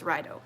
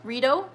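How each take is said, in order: First: Rideau said as RYE-doh, first vowel like eye; landing on Rideau as rye-doh. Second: Rideau said as ree-DOH, first vowel like ee; trying out Rideau as ree-doh. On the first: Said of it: "I think I'm saying it". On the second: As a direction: Rideau with an ee sound, ree-doh, rising like a question. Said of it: "The second pronunciation". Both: Shown as a demonstration.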